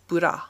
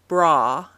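First: An extra vowel splits the B and R. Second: B and R are blended with no vowel between. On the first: "the Japanese bura" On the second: "the U.S. bra"

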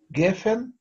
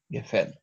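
First: The stress is on the first syllable. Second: The stress is on the last syllable. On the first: The speaker calls it right. "Ударение падает на предпоследний слог" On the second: The speaker calls it wrong. "а не"

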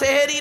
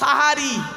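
First: The first vowel sounds like 'e'. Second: The first vowel sounds like 'a'. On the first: The speaker calls it wrong. "শব্দটা সেহেরি নয়" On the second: The speaker calls it right. "শব্দটা হলো সাহারি"

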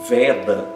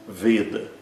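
First: The first vowel is an open e. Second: The first vowel is a closed e. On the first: The speaker calls it wrong. "Algumas pessoas dizem Veda" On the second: The speaker calls it right. "esse E é sempre fechado e longo"

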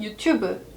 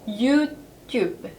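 First: It is said with Korean pronunciation. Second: It is said with French pronunciation. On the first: "우리말로는 유튜브" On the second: "프랑스 사람들은 이 유튜브를 유튜브"

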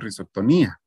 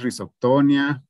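First: The stress falls on the 'i' near the end. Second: The 'i' near the end is left unstressed. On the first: The speaker calls it wrong. "Ustedes decían en algún momento rizoctonía o algo así" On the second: The speaker calls it right. "normalmente se pronuncian sin tilde o sin acento ahí"

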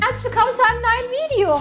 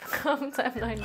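First: It sounds like a cheery kids' TV presenter. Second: It is said in her normal everyday voice.

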